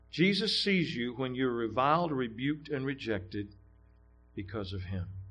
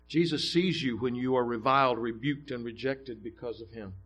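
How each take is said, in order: First: It is read slowly and deliberately. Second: It is read at a normal pace.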